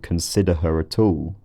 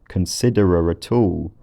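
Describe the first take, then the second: First: The h in 'her' is clearly pronounced. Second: The h in 'her' is dropped, with a linking r. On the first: "rather than" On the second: "we heard that combined with h dropping"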